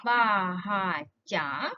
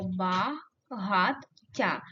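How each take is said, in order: First: БАГАТТЯ split as ба ... га ... ття, pauses between the parts; Багаття broken before the double т; syllable break. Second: БАГАТТЯ split as ба ... гат ... тя, pauses between the parts; багаття broken inside the double т; syllable break. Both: Shown as a demonstration. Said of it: "Будь-який з цих варіантів".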